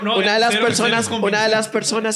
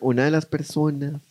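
First: The phrase is spoken at normal volume. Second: The phrase is spoken quietly, in a lowered voice.

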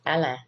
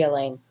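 First: The name is said the Cajun way. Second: The name is said the general American way.

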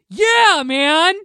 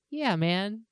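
First: It is said very loudly. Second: It is said more quietly.

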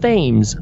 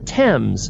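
First: The name is said the way it is spelled. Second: The name is said in its usual established way. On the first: "When you look at it, it should be pronounced" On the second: "you pronounce that river"

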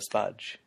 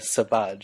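First: No vowel is inserted after the s. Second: A neutral vowel is inserted after the s. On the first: "instead of" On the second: "You need to put that, that emphasis on the... The schwa"

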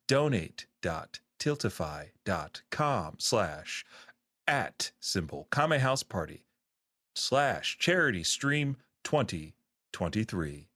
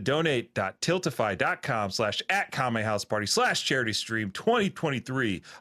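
First: The address is read at a slower pace. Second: The address is read at a quicker pace.

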